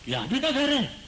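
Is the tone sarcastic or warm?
sarcastic. The tone is sarcastic and indignant. You are acting as if you own this place. "कोई एक stranger मेरे यहां आया और मेरे घर में घुस रहा है। मैंने कहा"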